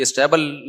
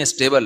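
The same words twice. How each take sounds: First: اسٹیبل said "i-stabble", with a short a; wrong vowel. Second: اسٹیبل said "i-stay-bl", with a long ay; corrected pronunciation. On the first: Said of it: "یہ اسٹیبل نہیں ہے". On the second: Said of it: "اسٹیبل ہے یار". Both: Shown as a demonstration.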